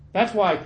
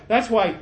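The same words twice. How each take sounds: The two takes are said the same way.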